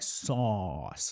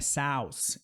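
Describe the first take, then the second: First: The vowel is an open O sound. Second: The vowel is not an open O sound. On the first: The speaker calls it right. "é sauce" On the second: The speaker calls it wrong. "Não é sauce"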